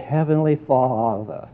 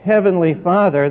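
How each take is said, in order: First: The phrase is drawn out in an overdone pious manner. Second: The phrase is said plainly and simply.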